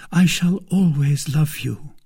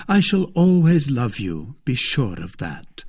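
First: High, slow declaration of love; devoted maid. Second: A hint of the reassuring lover; reassuring gallant. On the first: Acted. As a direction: vow it slowly in a raised maid's voice. Voices Kitty declaring love. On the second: Voices D'Artagnan reassuring Kitty.

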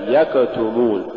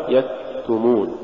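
First: يكتمون with an over-released ك, like an extra beat; exaggerated kaf release. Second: Said in the usual way. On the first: Shown as a demonstration. Teacher showing "like this", overdone kaf release in يكتمون. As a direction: push the ك of يكتمون out before the ت. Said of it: "هكذا". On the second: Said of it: "والصواب".

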